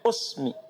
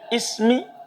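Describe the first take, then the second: First: The word begins with a u vowel. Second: The word begins with an i vowel. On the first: "boleh antum dhamma" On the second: "Boleh antum kasrah"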